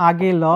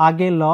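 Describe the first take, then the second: Both takes have the same delivery.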